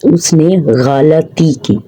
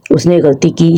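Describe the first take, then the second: First: गलती said slowly as "gha-la-ti" in three syllables; slow, careful गलती as the proper form; correct pronunciation. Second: गलती said as "ghal-ti" in two syllables; गलती clipped to two syllables, demonstrating the error; wrong pronunciation. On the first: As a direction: stretch गलती out, sounding the middle "a". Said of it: "दुरुस्त लफ्ज़ है". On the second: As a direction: say गलती the common mistaken way, run together. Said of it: "नहीं". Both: Shown as a demonstration.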